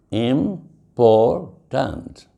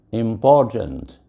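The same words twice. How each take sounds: First: "Important" broken slowly into three syllables, im, por, tant; "Important" in three separate, drawn-out beats. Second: Said in the usual way. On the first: Shown as a demonstration. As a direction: say "Important" very slowly, pausing after each syllable. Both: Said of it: "three syllables".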